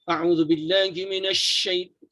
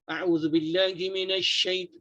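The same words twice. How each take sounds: First: The s sound is pronounced with strong force. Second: The s sound is pronounced with moderate force. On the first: The speaker calls it wrong. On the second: The speaker calls it right.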